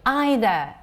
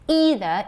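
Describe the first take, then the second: First: It is said with a British English pronunciation. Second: It is said with an American English pronunciation. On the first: "either is British English" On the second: "either is American version"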